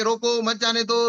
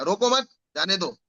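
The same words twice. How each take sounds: First: रोको set apart, then मत जाने दो as one phrase; group मत with जाने दो, as a order to stop; pause after रोको. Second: रोको मत run together, a break, then जाने दो; pause after मत. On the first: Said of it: "मेरे बोलने के". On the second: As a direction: join मत to रोको, then let जाने दो fall. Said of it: "जैसा बॉडी लैंग्वेज बनाऊंगा". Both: Shown as a demonstration.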